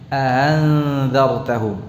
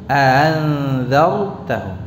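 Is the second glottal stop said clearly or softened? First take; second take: softened; softened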